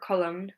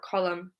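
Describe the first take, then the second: First: The final N sound is pronounced. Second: The word ends with an M sound. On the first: The speaker calls it wrong. "We don't say" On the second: The speaker calls it right. "column with an M sound at the end"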